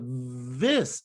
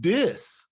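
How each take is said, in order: First: The word begins with a th sound. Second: The word begins with a d sound. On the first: "instead of" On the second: "it became"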